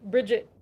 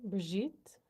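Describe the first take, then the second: First: The name is said in an American way. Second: The name is said in a French way. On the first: "American pronunciation would be Bridget" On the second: "French or U K. Brigitte"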